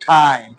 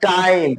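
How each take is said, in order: First: ঠাইম opening on an aspirated t; new aspirated T. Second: টাইম with a plain, unaspirated t; old unaspirated T. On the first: Teacher showing learners the new way, aspirated t in ঠাইম. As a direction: say ঠাইম with a puff of air after the t. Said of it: "এখন করব". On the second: Teacher showing learners the old way, plain t in টাইম. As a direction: say টাইম with no puff of air. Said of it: "আগে আমরা করেছি". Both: Shown as a demonstration.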